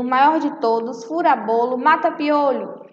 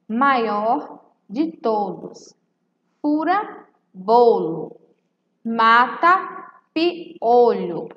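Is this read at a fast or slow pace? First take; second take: fast; slow. First: It is read quickly, phrases running together. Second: It is read slowly, phrase by phrase.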